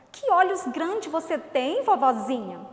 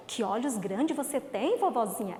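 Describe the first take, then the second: First: Admiring exclamation. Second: Said in the usual way. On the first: Shown as a demonstration. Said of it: "veio o ponto de exclamação". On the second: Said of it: "chega e fala".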